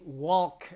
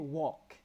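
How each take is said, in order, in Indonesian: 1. Bunyi L diucapkan dengan jelas. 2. Bunyi L diam atau hampir tidak terdengar. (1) "Nah itu kan udah aneh ya" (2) "L-nya nggak usah disebut atau disebut samar aja"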